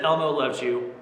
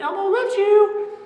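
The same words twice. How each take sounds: First: It is said in his normal voice. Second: It is said in Elmo's voice.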